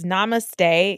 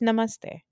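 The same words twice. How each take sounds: First: The word is said in an anglicized way. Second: The word is said in a native way. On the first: The speaker calls it wrong. "namaste is how white people say it" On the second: The speaker calls it right. "It's namaste, okay?"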